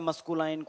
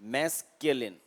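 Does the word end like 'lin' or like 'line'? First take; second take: line; lin. First: The word ends with a 'line' sound. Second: The word ends with a short 'lin' sound. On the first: The speaker calls it wrong. "कोई कहता है मस्कुलाइन" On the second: The speaker calls it right. "मैस पे stress लोगे"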